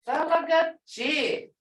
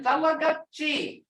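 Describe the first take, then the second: First: Talagachi said slowly, leaning hard on the G; emphasized G. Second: Said in the usual way. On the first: Shown as a demonstration. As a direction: stretch Talagachi out and punch its G so it sounds meant. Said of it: "That G is like an expression, meaning it". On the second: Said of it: "And that's emphasized".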